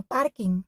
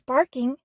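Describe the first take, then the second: First: Parking said the Spanish way, tapped r and the final g dropped, like "parkin"; parking adapted to Spanish sounds; Spanish-adapted pronunciation. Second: Parking said the English way, with an English r and a final g; parking in its original English sounds; English pronunciation. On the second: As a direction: say parking as an English speaker would. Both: Shown as a demonstration. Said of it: "la adaptamos a la pronunciación del español".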